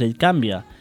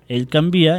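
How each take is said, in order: First: The stress falls on the syllable 'can'. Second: The stress falls on the syllable 'vi'. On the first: The speaker calls it wrong. "i no pas ell canvia" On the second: The speaker calls it right.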